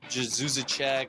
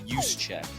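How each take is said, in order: First: The name is said as Jezusacek. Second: The name ends like the phrase 'use a check'. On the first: Other people say it this way. The speaker calls it wrong. "I've literally heard everything under the sun" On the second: This is how the name is really said. The speaker calls it right. "It's pronounced Juszczyk, like you use a check"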